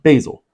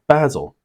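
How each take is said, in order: First: It is said the American way. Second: It is said the British or Australian way.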